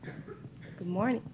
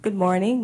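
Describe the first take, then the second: First: Barely audible, mic too far; soft, distant hello; faint greeting. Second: Projected good morning, rising; louder greeting. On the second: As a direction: say it up for the room. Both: Real, not acted. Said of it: "Can you hear me?".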